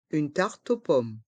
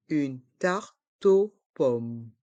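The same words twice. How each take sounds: First: Said in the usual way. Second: Slow "Une tarte aux pommes", with gaps, T joined to aux; learner-paced, split "Une tarte aux pommes"; syllable by syllable. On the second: Shown as a demonstration. Teacher breaks phrase into syllables.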